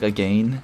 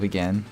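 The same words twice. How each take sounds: First: It is said with a British-sounding vowel. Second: It is said with an American-sounding vowel. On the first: The actor slipped out of the American accent. The speaker calls it wrong. "He says, like, again" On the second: This is the expected American form. The speaker calls it right. "instead of again"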